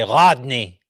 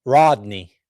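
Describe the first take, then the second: First: "Rodney" with a uvular gargled r. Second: "Rodney" with an ordinary English r. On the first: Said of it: "that's how they say their R's". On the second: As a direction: start "Rodney" with the tongue-curled r. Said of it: "they can't say, for example". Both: Shown as a demonstration.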